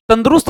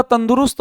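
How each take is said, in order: First: "तंदुरुस्त" said as tandrust, no u after d, slightly louder and higher; the incorrect "तंदुरुस्त" squeezed to tand-rust; wrong form shown. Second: "तंदुरुस्त" said fully as tan-du-rust with a clear u; the right "तंदुरुस्त", every syllable spelled out; correct form shown. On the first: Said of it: "तंदुरुस्त नहीं होता". (गलत उच्चारण: "तंदुरुस्त" को तंद्रुस्त बोलें) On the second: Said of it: "तंदुरुस्त होता है". (सही उच्चारण: "तंदुरुस्त" को तन-दु-रुस्त साफ़ बोलें) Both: Shown as a demonstration.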